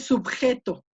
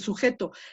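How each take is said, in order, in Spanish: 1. La palabra se dice con sonido b. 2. La palabra se dice sin sonido b. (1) "Nadie dice subjeto" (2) "ya decimos el sujeto"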